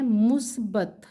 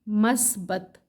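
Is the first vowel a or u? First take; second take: u; a. First: The first vowel is u, musbat. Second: The first vowel is a, masbat. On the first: The speaker calls it right. "मीम के ऊपर पेश है" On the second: The speaker calls it wrong. "मस्बत सही लफ्ज़ नहीं है"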